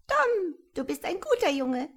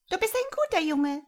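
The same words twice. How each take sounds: First: As calm as can be, like a small bird; calm piping voice. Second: Quick, high, chirping creature; high piping voice. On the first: Tiny creature calmly praising Tom, high and piping. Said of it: "So gelassen, wie du es dir nur vorstellen kannst". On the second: Tiny creature praising Tom, high and piping. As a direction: chirp it like a small bird. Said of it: "seine Stimme war sanft und hoch und piepsig". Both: A narrator's reading.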